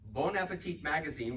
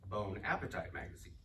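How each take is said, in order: First: Bon Appetit is said the usual French way. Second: Bon Appetit is said like English bone appetite. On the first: The speaker calls it right. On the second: The speaker calls it wrong.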